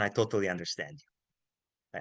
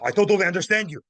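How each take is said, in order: First: It is said in a calm, warm tone. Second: It is said in an aggressive, harsh tone. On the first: The listener's doubts are shared and respected. The speaker calls it right. "Hey, man" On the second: The listener is being confronted. The speaker calls it wrong. "Not aggressive, not"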